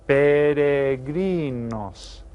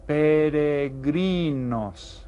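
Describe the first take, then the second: First: "Peregrinos" again drawn out, a bit louder; slow repeated model. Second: "peregrinos" drawn out with a tapped Spanish r; slow Spanish word. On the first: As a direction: repeat "Peregrinos" slowly for learners. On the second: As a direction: sound out "peregrinos" slowly for the class. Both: Shown as a demonstration. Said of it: "Y en español son".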